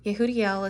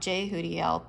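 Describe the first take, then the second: First: The name begins with a Y sound. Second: The name begins with a J sound. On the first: The speaker calls it right. "evidently you pronounce it with a Y" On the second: The speaker calls it wrong. "When I first picked it, I thought Jehudiel"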